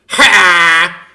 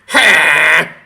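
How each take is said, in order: First: The cry sounds rough, with a distorted rasp. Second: The same.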